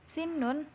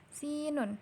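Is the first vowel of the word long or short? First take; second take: short; long. First: The first vowel is said short. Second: The first vowel is said long. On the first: It means teeth. The speaker calls it right. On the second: It becomes the name of a letter. The speaker calls it wrong.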